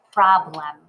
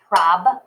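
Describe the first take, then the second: First: Said in the usual way. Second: "Problem" broken as prob, pause, lem; clapped syllables. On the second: Shown as a demonstration. Teacher clapping Problem for learners, split into syllables. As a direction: clap out "Problem" in two beats. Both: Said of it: "Let's clap it".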